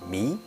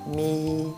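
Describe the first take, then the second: First: The pitch rises from low to high. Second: The pitch stays level and flat. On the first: "the second one is 米, 米 from the bottom" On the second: "In the first time, we it's pronounced 咪"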